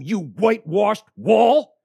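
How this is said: It is said with heated fervor.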